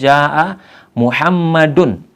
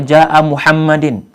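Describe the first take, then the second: First: Muhammad ends with an 'oo' vowel before the n. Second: Muhammad ends with a non-'oo' vowel before the n. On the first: The speaker calls it right. "harokat dal dari kata Muhammad kita dhammah" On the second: The speaker calls it wrong. "ini salah"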